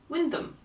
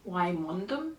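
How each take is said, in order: First: The name is shortened to sound like Windum. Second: The name is said as it is spelled. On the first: The speaker calls it right. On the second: The speaker calls it wrong. "how would you pronounce the name of this place? Wymondham? No"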